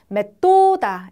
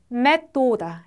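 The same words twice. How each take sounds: First: The stress is on the second syllable. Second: The stress is on the first syllable. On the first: The speaker calls it wrong. "이렇게 읽으시면 안 돼요" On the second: The speaker calls it right. "슬로바키아는 첫 음절에 항상 강세가 와요"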